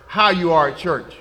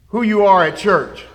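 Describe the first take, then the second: First: "how" leaned on, softer overall; stress on how. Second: "who" leaned on, falling; stress on who. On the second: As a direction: stress "who" in "who you are at church". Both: Shown as a demonstration.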